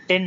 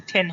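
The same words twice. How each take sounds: First: "টেন" with a plain t, no puff; dry t opening "টেন"; unaspirated T. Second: "টেন" with a puff of air on the t; airy burst on the t of "টেন"; aspirated T. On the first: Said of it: "এটা টেন না". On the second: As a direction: say "টেন" as then with a hard th stop. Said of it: "এটা টেন হয়ে যাবে". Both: Shown as a demonstration.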